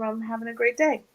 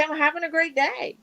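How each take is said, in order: First: Said in the usual way. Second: Upbeat. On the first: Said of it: "their equivalency of having". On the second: Shown as a demonstration. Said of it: "just say".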